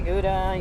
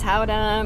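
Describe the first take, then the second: First: It starts with a hard G sound. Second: It starts with a soft, throaty sound. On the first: This is the usual English way to say it. "if we say Gouda" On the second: This is the authentic Dutch way to say it. "we know it's Howda"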